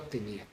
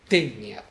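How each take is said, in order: First: The stress is on the second syllable. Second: The stress is on the first syllable. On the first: The speaker calls it wrong. "No tenía" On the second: The speaker calls it right. "desplazamiento acentual a la sílaba anterior"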